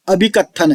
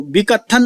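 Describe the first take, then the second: First: अभिकथन opening on a clear "a" before "bhi"; full prefixed reading. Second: विकथन begun straight on "vi", no opening "a"; misreading without prefix. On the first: Teacher correcting students' reading, अभिकथन with its initial "a". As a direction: sound the first vowel of अभिकथन. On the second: Teacher showing students the reading to avoid, विकथन without initial "a". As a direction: say विकथन with the first vowel dropped. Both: Shown as a demonstration. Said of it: "इसको विकथन नहीं पढ़ना है".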